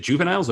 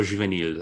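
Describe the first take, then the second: First: "juveniles" said the English way, JOO-və-niles; English pronunciation. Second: "juveniles" said French-style, zhoo-vay-NEEL; French-style pronunciation. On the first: Asking how the name is said, English-style "juveniles". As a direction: say "juveniles" as the ordinary English word. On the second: Offering the other option, French-style "juveniles". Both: Shown as a demonstration. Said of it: "never knew really how to say it".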